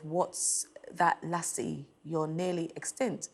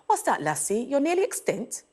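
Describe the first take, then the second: First: The line is read flatly, without expression. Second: The line is read with lively expression.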